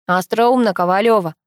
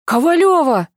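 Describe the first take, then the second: First: A hint of a dull, distant voice; muffled voice. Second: High, loud startled call; alarmed shout of a friend's surname; gasped exclamation. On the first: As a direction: answer drily from a distance, barely muffled. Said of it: "донёсся глухой голос Пашки". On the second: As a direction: cry the surname out in shock. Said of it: "охнул сверху Пашка". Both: A narrator's reading.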